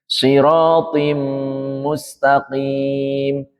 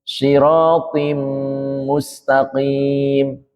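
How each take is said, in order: The two takes are said the same way.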